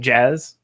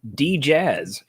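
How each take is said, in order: First: No D sound is heard before jazz. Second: A D sound is heard before jazz.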